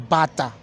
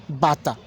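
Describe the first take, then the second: No difference in how they are said.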